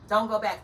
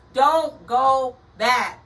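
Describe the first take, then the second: First: Said in the usual way. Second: Each word loud, high and drawn out; forceful word-by-word command; emphatic warning. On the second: Real, not acted. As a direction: slowly hammer DON'T, GO and BACK separately. Urgent warning repeated word by word.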